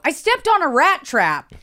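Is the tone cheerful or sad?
cheerful. It is said cheerfully, like a fun story.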